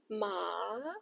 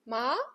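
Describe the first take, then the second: First: The pitch dips low, then rises. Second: The pitch rises smoothly upward. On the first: "the third tone, it dips, then rises" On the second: "the second tone rises, like you are asking a question"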